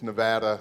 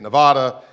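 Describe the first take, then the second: First: It is said the local Nevada way. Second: It is said the East Coast way. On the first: The speaker calls it right. "He said it's Nevada, so I need to get that right" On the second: The speaker calls it wrong. "in the East we say Nevada"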